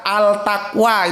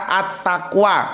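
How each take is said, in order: First: The article keeps a clear l sound. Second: The l blends into the following t sound. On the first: The speaker calls it wrong. "nggak ada al taqwa" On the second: The speaker calls it right. "Yang ada at taqwa"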